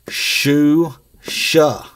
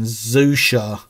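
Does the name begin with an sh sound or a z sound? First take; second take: sh; z. First: The name begins with an sh sound. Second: The name begins with a z sound. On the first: "the way this prona- is pronounced" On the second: "going with the Z pronunciation"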